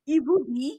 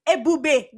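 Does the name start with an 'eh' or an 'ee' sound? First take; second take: ee; eh. First: The name starts with an 'ee' sound. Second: The name starts with an 'eh' sound. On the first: The speaker calls it wrong. "I've heard Ebube is pronounced as Ibubi" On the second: The speaker calls it right. "It's Ebube"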